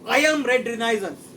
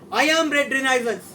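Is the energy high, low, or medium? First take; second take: low; high. First: It is said with ordinary energy. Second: It is said with maximum energy.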